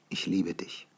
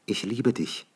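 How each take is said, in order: First: Softly, Ich liebe dich barely voiced; soft tender Ich liebe dich; tender confession. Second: Woman's tender words. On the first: She confesses love. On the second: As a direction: say Ich liebe dich gently as the woman. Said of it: "sagte sie". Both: A narrator's reading.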